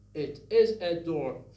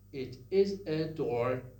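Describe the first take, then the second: First: Each vowel starts with a glottal catch. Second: The same.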